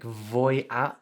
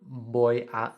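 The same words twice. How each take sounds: First: The first word begins with a v sound. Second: The first word begins with a b sound. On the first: The speaker calls it wrong. "we've got the voy with a v" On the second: The speaker calls it right. "instead of voy a ... you've got to make a b"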